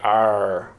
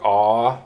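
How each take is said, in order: First: It is said with an r sound. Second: It is an open ah with no r. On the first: "the Australian people are like "r" like that" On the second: "in a British person will be like "ah" like that"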